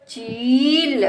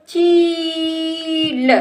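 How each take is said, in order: First: चील joined, shorter rising ee; blended word. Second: चील with long level ची, then ल; sounded out. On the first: Teacher blends the word for a child, joined up. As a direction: run चील into one word. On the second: Teacher sounds out the word for a child, stretched. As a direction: stretch चील apart slowly. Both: Shown as a demonstration. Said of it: "इस तरह से बेटा हम शब्दों को".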